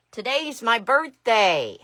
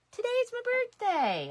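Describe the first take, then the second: First: Loud and slow, savouring it; excited announcement. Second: Much higher and louder, sing-song glee; gleeful repeat. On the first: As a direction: proclaim it loudly, stretched out. Announcing her birthday to viewers. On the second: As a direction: shoot up high with delight. Repeating birthday announcement. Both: Real, not acted.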